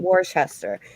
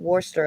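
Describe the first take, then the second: First: It is said with the American pronunciation. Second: It is said with the British pronunciation. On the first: "We call it Worcester, which is the right way of saying it" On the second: "You guys call it Worcester over there"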